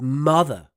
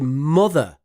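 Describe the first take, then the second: First: The vowel is the Southern English 'uh' sound. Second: The vowel sounds like a Northern English 'oh'. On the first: "instead of mother" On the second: "in the north of England, we say mother"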